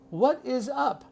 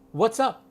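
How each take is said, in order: First: It is said in full with three syllables. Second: It is contracted to two syllables. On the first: The speaker calls it wrong. "No one says that" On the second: The speaker calls it right. "You have to say what's up"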